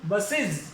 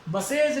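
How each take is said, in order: First: बसेज ending in iz, basiz; बसेज with a short iz at the end; correct pronunciation. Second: बसेज with a full e and j, basej; the wrong reading, बसेज ending in ej. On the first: Teacher gives the correct reading to the class. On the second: Teacher marks this reading as wrong. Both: Shown as a demonstration. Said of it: "बसेज नहीं".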